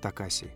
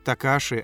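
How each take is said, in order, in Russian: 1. Последний слог произносится как 'si'. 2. Последний слог произносится как 'shi'. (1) "а не Такаси" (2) "Мне больше нравится Такаши"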